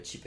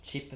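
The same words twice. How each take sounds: First: "Chip" said with a soft French sh sound, like "ship"; "Chip" as "ship", the French way, before the correction; French-style Chip. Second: "Chip" corrected to a crisp English "tch" sound; "Chip" with a clear "tch" at the start, the English way. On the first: Reading card names aloud, first tries "Chip" softly as "ship". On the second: Correcting himself on the card name, says "Chip" with English "tch". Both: Shown as a demonstration. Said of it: "Chip, pardon".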